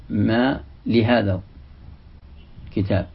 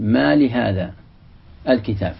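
First: ما لهذا الكتاب run together slowly, with no break before الكتاب; joined reading. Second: ما لهذا with a clear pause before الكتاب; separated reading. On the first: Teacher showing students the joined reading, slow and connected. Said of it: "بعض القراء يصلها، يقول". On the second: Teacher showing students the split reading, with a pause before الكتاب. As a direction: stop after ما لهذا, then say الكتاب on its own. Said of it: "أو يقول". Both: Shown as a demonstration.

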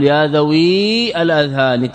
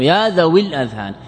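First: ذوي with its ياء fully drawn out; wrongly sounded final ya. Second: ذوي with a short i running into الأذهان; correctly dropped final ya. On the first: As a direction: hold ذوي on a long "ii", then start الأذهان separately. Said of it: "أنت لا تقل يا ذوي الأذهان تأتي بالياء". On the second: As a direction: link ذوي الأذهان as "dhawil-adhhan". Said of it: "إنما تقول". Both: Shown as a demonstration.

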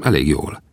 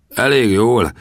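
First: Said in the usual way. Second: Higher-pitched, doubting question; incredulous echo. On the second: Acted. Gunsmith challenges the young man's boast, incredulous. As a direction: throw it back in disbelief. Harry throws the answer back scornfully.

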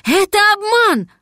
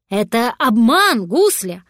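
First: Loud, high-pitched cry; shouted warning. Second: Said in the usual way. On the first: A narrator's reading. Cat warning the little dragon of a trick, high shout. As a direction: shout it out in alarm, pitch leaping up. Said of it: "крикнул кот".

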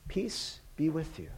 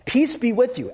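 First: Very soft, peaceful blessing; hushed and unforced, much softer; gentle proclamation. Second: Higher, firm "Peace be with you"; emphatic repeat. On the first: Jesus proclaims peace without demands, hushed and gentle. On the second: Jesus says it again to the disciples, with emphasis. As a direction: proclaim "Peace be with you" firmly, pitched up. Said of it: "Just for emphasis". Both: Retold or imitated.

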